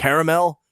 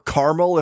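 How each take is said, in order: First: It is said with the standard pronunciation. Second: It is said with a rural, countrified pronunciation.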